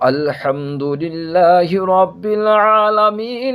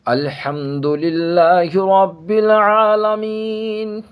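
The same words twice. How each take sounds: First: The verse runs straight on past aalameen without pausing. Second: The verse ends with a full stop after aalameen. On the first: The reciter joins the verses in one breath. "और अगर नहीं रुक रहे हैं" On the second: The reciter pauses at the end of each verse. "अगर हम यहाँ पर रुक रहे हैं"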